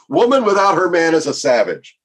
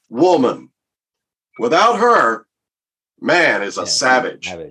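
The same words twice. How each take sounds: First: The sentence runs on as one phrase. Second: There are pauses after woman and after her. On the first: A woman is a savage without a man. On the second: A man is a savage without a woman.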